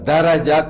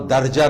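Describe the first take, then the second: First: A short vowel follows the middle consonant. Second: No vowel follows the middle consonant. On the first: The speaker calls it right. "दरजा को" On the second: The speaker calls it wrong. "दर्जा न पढ़िए"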